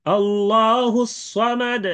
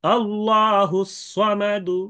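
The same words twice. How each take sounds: First: Slow, high chant ending "সামাদ" on a vowelless d; sakin stop recitation. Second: Slow, high chant ending "সামাদু" with a light u; rum stop recitation. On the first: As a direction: chant slowly, stopping "সামাদ" on a bouncing d. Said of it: "প্রথমে সাকিন". (সাকিন করে ধীর তিলাওয়াত, শেষে "সামাদ") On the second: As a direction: recite slowly, lightly voicing the final damma in "সামাদু". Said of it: "দ্বিতীয়ত রুম". (রুম করে ধীর তিলাওয়াত, "সামাদু"-তে হালকা পেশ) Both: Shown as a demonstration.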